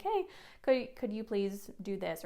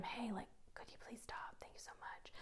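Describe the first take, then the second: First: Calling across the room. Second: Hushed, whispered polite correction. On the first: Teacher correcting a student across the room, voiced aloud. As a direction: call for attention, not mean about it. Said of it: "just gonna say across the room". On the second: Teacher quietly correcting one student up close, whispered. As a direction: whisper it privately, very softly. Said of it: "like, whisper to them". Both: Shown as a demonstration.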